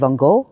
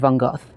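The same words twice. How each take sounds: First: The name is said the American way. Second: The name is said the British way. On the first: "in America you might say" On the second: "In the U K, we usually say"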